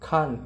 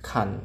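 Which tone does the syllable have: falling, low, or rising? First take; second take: falling; low. First: The syllable is said with a falling tone. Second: The syllable is said with a low tone. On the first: "ไม่โทขั้น" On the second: "ไม่เอกขัน"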